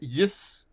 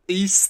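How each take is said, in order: First: The name starts with a 'y' sound. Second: The name starts with a vowel sound. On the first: The speaker calls it wrong. "I'm gonna say it wrong" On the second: The speaker calls it right. "There you go"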